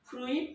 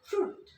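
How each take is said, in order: First: The vowel is u followed by i. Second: The vowel is a single long u. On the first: The speaker calls it wrong. "ফ্রুইট না হয়ে" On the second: The speaker calls it right. "এটাকে আমরা উচ্চারণ করব ফ্রুট"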